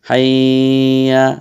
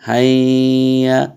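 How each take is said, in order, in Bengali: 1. এই শব্দের স্বরধ্বনিগুলো টেনে দীর্ঘ করে উচ্চারণ করা হয়। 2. এই শব্দের স্বরধ্বনিগুলো টেনে দীর্ঘ করে উচ্চারণ করা হয়।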